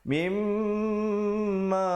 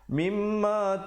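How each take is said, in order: First: The m is held with a long nasal hum. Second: The m is cut short without nasal hum. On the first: The speaker calls it right. "dia kena baca mimma baru masuk ma" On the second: The speaker calls it wrong. "Jangan baca mimma tum, salah"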